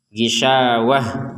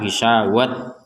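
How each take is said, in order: First: The word ends with a soft h sound. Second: The word ends with a t sound. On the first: The speaker calls it right. "huruf ta marbutohnya ini dibaca dengan ha" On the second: The speaker calls it wrong. "jangan dibaca sebagai sebagai tak gisawat, enggak boleh"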